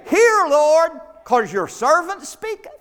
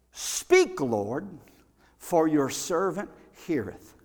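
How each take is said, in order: First: Louder and higher, pushy hear Lord; mock bossy prayer. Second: Slow, reverent speak Lord with pauses; humble prayer. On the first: Preacher mocking how we pray, loud and demanding. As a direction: boss God around, tongue in cheek. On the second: Preacher showing the right prayer, slow and reverent. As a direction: lay it down humbly before the Lord. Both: Shown as a demonstration. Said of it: "See, we've got that mixed up".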